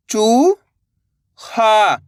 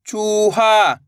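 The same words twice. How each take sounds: First: चू, long pause, हा; चूहा split slowly, rising then falling; syllable by syllable. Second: चूहा joined, long vowels; blended word. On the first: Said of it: "एक अक्षर का उच्चारण करना है". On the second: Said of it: "तो मिलके बन जाएगा". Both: Shown as a demonstration.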